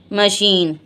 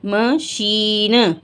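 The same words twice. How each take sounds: First: Said in the usual way. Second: Slow, drawn-out machine; slow teaching word; stretched demo. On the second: Shown as a demonstration. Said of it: "क्या है".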